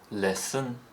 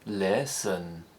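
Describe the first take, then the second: First: The pitch steps up on the word. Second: The pitch rises and then falls, stretched out. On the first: "appear to step up" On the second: "The rise-fall"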